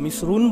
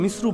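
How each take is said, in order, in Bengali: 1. শব্দটির শেষে একটি অতিরিক্ত 'n' ধ্বনি যোগ হয়। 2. শব্দটি স্বরধ্বনি দিয়ে শেষ হয়, 'n' ছাড়া। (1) "যদি মিশ্রণ অথবা মিশ্রুন বলেন, এটা গ্রামীণ উন্মুক্ত এলাকা" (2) "আপনি যদি মিশ্র অথবা মিশ্রু বলেন, এটা মিশর"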